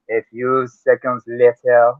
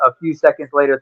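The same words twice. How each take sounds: First: Slow French narrator accent. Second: Said in the usual way. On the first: Shown as a demonstration. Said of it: "'Cause I can sure gonna do it". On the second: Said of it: "I know you can't do a French accent".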